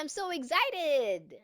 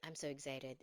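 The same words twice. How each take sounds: First: It is said with lively, excited energy. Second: It is said flatly, without any excitement. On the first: The speaker is truly happy about it. The speaker calls it right. "You gotta sound excited" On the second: The speaker sounds sarcastic and not really happy. The speaker calls it wrong. "it's like sarcastic"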